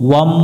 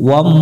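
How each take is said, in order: The two takes are said the same way.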